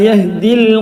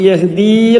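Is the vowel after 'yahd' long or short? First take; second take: short; long. First: The vowel after 'yahd' is kept short. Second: The vowel after 'yahd' is drawn out long. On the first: The speaker calls it right. "നീട്ടാനുള്ള അക്ഷരത്തിന് ശേഷം സുക്കൂൻ ഉണ്ടോ?" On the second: The speaker calls it wrong. "യഹ്ദിയിൽ എന്നല്ല"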